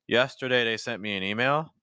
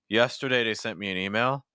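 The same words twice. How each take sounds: Both takes have the same delivery.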